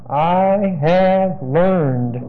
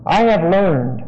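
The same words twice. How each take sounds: First: "have" held long and weighted, each word spaced out; stress on have, very slow. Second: Said in the usual way. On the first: Shown as a demonstration. Preacher stressing a key word for his congregation, very slow with weight on "have". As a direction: drag out I have learned very slowly, leaning on "have". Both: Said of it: "I want to stress that word again".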